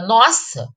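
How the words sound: It is short, quick and sounds startled. The speaker feels a sudden fright. "exprime susto e tem uma pronúncia breve e rápida"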